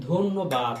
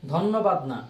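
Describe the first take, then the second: First: ধন্যবাদ said short and crisp as the right form; corrected take. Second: ধন্যবাদ said as the mistaken form, drawn out; wrong take. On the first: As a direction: land ধন্যবাদ cleanly. (সঠিক উচ্চারণ ধন্যবাদ) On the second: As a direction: stretch ধন্যবাদ to show the error. (ভুল উচ্চারণ ধন্যবাদ) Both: Shown as a demonstration.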